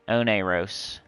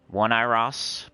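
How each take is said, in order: First: It is said as one blended word. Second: It is said as two parts, starting with 'one'. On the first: The speaker calls it right. "Maybe that's it" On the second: The speaker calls it wrong. "I want to say one because I'm seeing like one"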